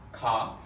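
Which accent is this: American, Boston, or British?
British. It is said in a British accent.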